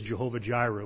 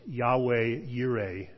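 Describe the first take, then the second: First: The name begins with a J sound. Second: The name begins with a Y sound. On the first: This is an older way of saying the name. The speaker calls it wrong. "which is an archaic pronunciation" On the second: This is the more accurate way of saying the name. The speaker calls it right. "It's probably more properly pronounced"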